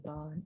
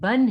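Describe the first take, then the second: First: The vowel is drawn out long. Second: The vowel is short, without lengthening. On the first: The speaker calls it wrong. "इसकी साउंड ऐसे नहीं होगी" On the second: The speaker calls it right. "बल्कि बा दो जबर बन ही इसको रीड करना है हमने"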